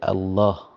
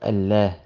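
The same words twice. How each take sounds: First: The L is heavy, with a deep ah sound. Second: The L is light, with a thin clear sound. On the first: The speaker calls it right. "you say Allah" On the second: The speaker calls it wrong. "instead of Allah"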